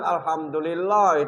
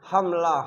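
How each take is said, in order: First: Every syllable of the word is pronounced. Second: The word is squeezed into two quick syllables. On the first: The speaker calls it right. "bukan alhamdulillah" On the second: The speaker calls it wrong. "Kalau nak cepat"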